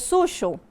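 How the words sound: The middle consonant is a sh or zh sound.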